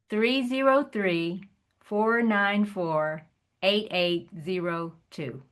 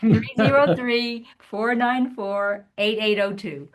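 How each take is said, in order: First: The number is said more slowly. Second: The number is said at normal speed.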